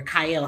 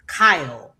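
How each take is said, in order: First: "Kyle" split into two syllables, kai-EL; alternative pronunciation. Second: "Kyle" as one syllable; one pronunciation. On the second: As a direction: say "Kyle" to rhyme with "mile". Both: Shown as a demonstration. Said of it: "however you say his name".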